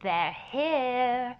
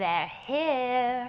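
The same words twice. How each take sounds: First: It is said in an imitated movie voice. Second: It is said in an imitated movie voice.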